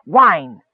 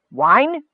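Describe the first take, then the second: First: Firm, falling confirmation; proud. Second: Raised pitch, rising question; puzzled question. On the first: Miner confirming his find to the leader, proud. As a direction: state it proudly as fact. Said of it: "Skit repeated proudly". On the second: Leader baffled by the miner's find, puzzled. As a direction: echo it back in blinking puzzlement. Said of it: "Gorge blinked". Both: A narrator's reading.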